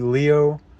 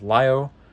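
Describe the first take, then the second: First: The name is said with English pronunciation. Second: The name is said with Japanese pronunciation. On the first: "Technically it'd be Leo" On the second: "I pronounce it how the Japanese pronounce it"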